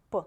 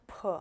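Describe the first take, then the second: First: P said short and clean with no added sound; crisp lone p. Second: P with an extra vowel sound after it; p said with an added sound; wrong p. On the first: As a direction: model a bare p. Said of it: "just p". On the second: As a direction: show the mistake with p. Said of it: "Not p". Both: Shown as a demonstration.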